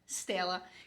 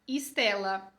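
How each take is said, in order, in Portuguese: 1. O nome começa direto com o som de S. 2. Entra um som de vogal antes do S. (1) "A gente não fala" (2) "A gente fala"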